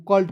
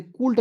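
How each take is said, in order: First: Said in the usual way. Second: "कुल्ट" with an oo vowel after the k; wrong pronunciation. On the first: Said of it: "को कल्ट पढ़ा जाएगा". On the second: Shown as a demonstration. Teacher warns students off a misreading, mispronounced "कुल्ट" with oo. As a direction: say "कुल्ट" with the u sounded as oo. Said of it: "नहीं पढ़ लीजिएगा".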